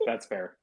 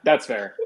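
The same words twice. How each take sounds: First: Softly conceding; quiet. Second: Laughing. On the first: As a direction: drop it to a murmur. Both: Real, not acted. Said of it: "repeats That's fair".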